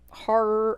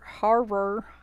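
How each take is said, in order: First: The word is said casually in a natural accent. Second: The word is said with careful, deliberate articulation. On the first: The speaker calls it wrong. "because of my accent" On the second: The speaker calls it right. "I have to say it like that"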